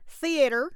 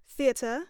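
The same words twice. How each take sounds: First: It is said in a Southern American twang. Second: It is said in a British accent. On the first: "I'm going to do a southern twang" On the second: "I'm going to do British"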